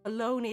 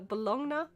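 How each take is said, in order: First: The word is said in its usual spoken form. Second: The word is sounded out as it is written. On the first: "is how it's pronounced" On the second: "how it's spelled"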